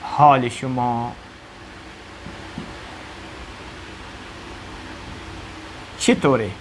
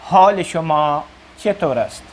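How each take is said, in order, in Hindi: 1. आखिरी दो शब्द मिलकर एक हो जाते हैं। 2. आखिरी दो शब्द अलग-अलग बोले जाते हैं।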